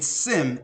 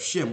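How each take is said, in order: First: The name begins with a plain 's' sound. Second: The name begins with an 'sh' sound. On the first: The speaker calls it wrong. "a mispronunciation or mispronouncing Shem" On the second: The speaker calls it right. "instead of Shem"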